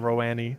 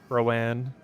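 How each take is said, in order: First: The name ends with an added 'ee' syllable. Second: The name ends without an added 'ee' syllable. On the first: "I'm adding a syllable that doesn't even exist in the word" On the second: "that's the correct number of syllables"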